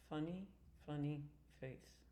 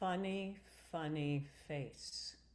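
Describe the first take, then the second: First: The F sound is held back and weak. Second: The F sound is strongly released with breath. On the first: The speaker calls it wrong. "what I'm hearing is this" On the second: The speaker calls it right. "Use the release of the F"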